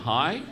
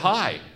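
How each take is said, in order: First: The voice rises at the end. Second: The voice falls at the end.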